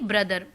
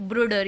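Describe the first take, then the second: First: The word is said with standard English sounds. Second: The word is said with German-accented sounds. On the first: "यानी ब्रदर" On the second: "ब्रूडर यानी ब्रदर"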